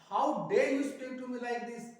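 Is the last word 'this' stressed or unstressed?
unstressed. The final word 'this' is said without stress. The speaker calls it wrong. "दिस के ऊपर stress नहीं डाला"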